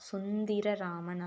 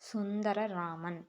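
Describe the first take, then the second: First: The second syllable has an i vowel. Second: The second syllable has an a vowel. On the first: The speaker calls it wrong. "சுந்திரராமன் அல்ல" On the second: The speaker calls it right. "தீ வராது தா"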